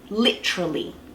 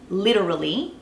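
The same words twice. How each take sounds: First: The vowel between T and R is dropped. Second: The vowel between T and R is kept. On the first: This is the Australian way of saying it. "just dropping the E all together" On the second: This is the American way of saying it. "which is how the Americans would say it"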